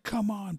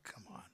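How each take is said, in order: First: High strained mock challenge; high-pitched, barely-standing taunt; weary Ric Flair. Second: Barely audible worn-out plea; all but voiceless, as if barely standing; weary Ric Flair. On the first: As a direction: imitate a spent wrestler straining to rally. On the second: Retold or imitated. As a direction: imitate a spent wrestler very faintly. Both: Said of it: "like he's barely has enough to stand up".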